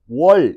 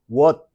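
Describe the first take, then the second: First: The final l sound is long and drawn out. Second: The syllable ends abruptly, cut off short. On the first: This is how it was read in Korea. "이렇게 길게 늘어지는 유성음으로 인식을 했다고" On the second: This is how it was read in China. "이렇게 끊어지는 발음으로 읽었다"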